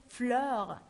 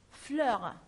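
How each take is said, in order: The two takes are said the same way.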